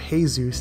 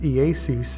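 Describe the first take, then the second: First: The name is pronounced the Spanish way. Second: The name is pronounced the Greek way. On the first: "or Jesus in Spanish" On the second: "originally pronounced Iesus in the Greek"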